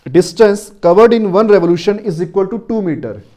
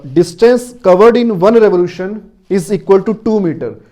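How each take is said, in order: The two takes are said the same way.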